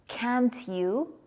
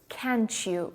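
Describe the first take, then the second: First: The t and y are said separately. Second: The t and y merge into ch.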